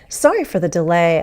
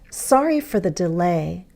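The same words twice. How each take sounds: First: It is spoken at a normal, faster pace. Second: It is spoken at a slower pace.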